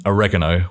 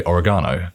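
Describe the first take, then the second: First: "oregano" the American way, stress on the second syllable; American pronunciation. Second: "oregano" the British way, stress on the third syllable, "-GAH-no"; British pronunciation. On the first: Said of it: "other Americans like myself with different accents would say". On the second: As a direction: say "oregano" as Britons do. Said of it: "we would say oregano". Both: Shown as a demonstration.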